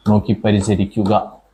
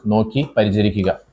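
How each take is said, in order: First: Slow, clear repeat of "നോക്കി പരിചരിക്കുക" for students to write; slow dictation. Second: Said in the usual way. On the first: Shown as a demonstration. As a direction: say "നോക്കി പരിചരിക്കുക" slowly and evenly, word by word. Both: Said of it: "repeated slower for dictation".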